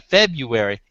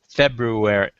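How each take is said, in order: First: The first r is dropped: Feb-yoo-ary. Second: The first r is pronounced: Feb-roo-ary. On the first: The speaker calls it wrong. "F E B U A R Y, rhymes with January" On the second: The speaker calls it right. "The word is February"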